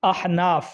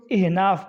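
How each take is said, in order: First: احناف opening on a short "a": ah-naaf; careful "ah-" start on احناف; correct pronunciation. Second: احناف opening on "i": ih-naaf; common mispronunciation. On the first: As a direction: say احناف as "ahnaaf", zabar on the alif. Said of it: "جبکہ درست احناف نہیں ہے". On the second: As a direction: say احناف as "ihnaaf", zer under the alif. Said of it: "الف کے نیچے زیر پڑھتے ہیں". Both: Shown as a demonstration.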